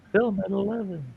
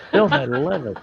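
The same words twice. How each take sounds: First: High-pitched playful news promo; mock newscaster. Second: High, laughing news-anchor sign-off; laughing parody of an evening news promo; mock newscaster. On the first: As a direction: sing it up like a cartoon anchor. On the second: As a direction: announce it like a TV teaser. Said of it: "Stand by".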